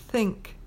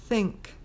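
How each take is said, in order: Both takes have the same delivery.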